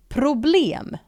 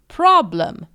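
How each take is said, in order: First: Problem with a rounded o and a clear e, /problem/; Swedish problem. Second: Problem with an English ah and a weak schwa, /prɑbləm/. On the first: Teacher showing learners Swedish problem pronunciation. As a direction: say problem the Swedish way, pro-blem. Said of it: "we pronounce it this way". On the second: Teacher giving the English take after the Swedish one. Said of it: "the English word for problem". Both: Shown as a demonstration.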